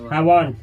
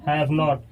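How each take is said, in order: First: 'Not' is reduced and attached to the verb. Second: 'Not' is a separate, full word.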